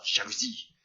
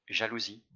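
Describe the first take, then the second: First: It is said in a hard, tense tone. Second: It is said in a soft, gentle tone. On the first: The feeling is named with self-judgment. "Peut-être qu'au début de votre exercice, ce sera" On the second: The feeling is named with tolerance. "Dites avec un ton doux"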